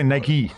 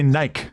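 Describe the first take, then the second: First: It is said the way Americans usually say it. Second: It is said the way people in England say it. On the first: "They don't say Nike" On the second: "They say Nike"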